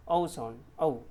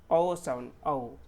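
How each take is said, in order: Both takes have the same delivery.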